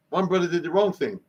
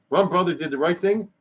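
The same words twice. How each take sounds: First: Wrong set against right with a falling tune; "one brother did the wrong thing", landing hard on "wrong"; stress on wrong. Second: Right lifted and weighed against wrong; "one brother did the right thing", leaning on "right"; stress on right. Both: Shown as a demonstration.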